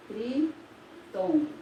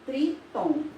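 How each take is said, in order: First: "Tritongo" drawn out slowly, each syllable spaced; teacher says "Tritongo" slowly to let students hear its syllables; slow and clear. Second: Said in the usual way. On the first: Shown as a demonstration. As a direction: spell out "Tritongo" slowly for the class. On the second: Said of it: "nós temos o".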